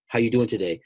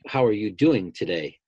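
First: It is asked casually, in passing. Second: It is asked sincerely, really wanting to know.

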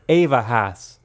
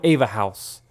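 First: It is said in a Pittsburgh accent. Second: It is said in a general American accent.

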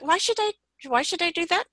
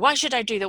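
First: It sounds open and curious. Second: It sounds negative and resistant. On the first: The speaker is open to possibilities. The speaker calls it right. "Inquiring tone of voice" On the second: The speaker resists and judges the request. The speaker calls it wrong. "in the tone that you said, you know, ... that is a negative"

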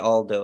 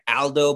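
First: The name has an English-style first vowel. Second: The first vowel is an open Italian a. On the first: "how are you going to tell an English speaker not to say Aldo" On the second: "supposed to be with an open A, like Aldo"

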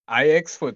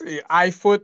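First: The X is spoken aloud in the name. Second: The X is left out of the name. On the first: "IXFoot sounds dope" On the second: "do you want to pronounce the X? iFoot sounds dope"

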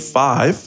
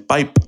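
First: The word begins with an f sound. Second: The word begins with a p sound.

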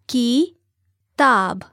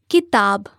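First: The word is said slowly, syllable by syllable. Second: The word is said smoothly at normal speed. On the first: "break down syllable by syllable" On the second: "give you the word again at natural native speed"

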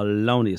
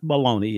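First: The word is clipped to its last two syllables. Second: The word is said in full, three syllables. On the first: This is how people in the neighborhood say it. "they called it loney" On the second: This is the standard name. "it's not bologna"

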